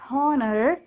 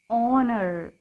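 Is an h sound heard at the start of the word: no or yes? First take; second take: yes; no. First: The word starts with a clear h sound. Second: The word starts with a vowel, no h sound. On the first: The speaker calls it wrong. "This is not honor" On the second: The speaker calls it right. "H is silent here"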